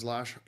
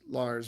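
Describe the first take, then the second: First: The name is said with a Norwegian pronunciation. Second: The name is said with an English pronunciation. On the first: "in Norwegian, it's pronounced Lars" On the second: "in English, his name is Lars"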